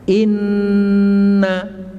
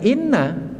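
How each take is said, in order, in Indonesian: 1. Bunyi sengau n ditahan panjang. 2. Bunyi n pendek, tanpa ditahan. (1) "tapi kita tahan inna" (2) "itu bukan kita baca inna"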